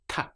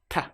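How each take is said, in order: First: The T sound is said the European way, dentally. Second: The T sound is said the European way, dentally.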